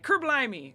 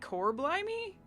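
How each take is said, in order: First: The first word is said fast and run together. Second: The first word is said slowly and separately.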